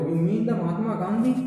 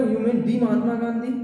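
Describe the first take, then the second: First: The said short, "duh", before Mahatma Gandhi; the as "duh", rising question. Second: The said long as "dee" to single out Mahatma Gandhi; teacher's demo of emphatic "dee". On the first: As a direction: say the as a quick "duh". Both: Shown as a demonstration. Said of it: "तो द नहीं बोले".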